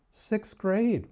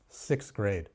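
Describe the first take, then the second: First: Sixth grade pitched high in hammed-up shock; mock disbelief. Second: Said in the usual way. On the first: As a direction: repeat it as if it's outrageous.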